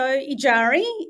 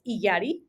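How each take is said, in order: First: The name is said in a Western way. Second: The name is said in a Spanish way. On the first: "my Western pronunciation of my name" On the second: "in Spanish, it's pronounced"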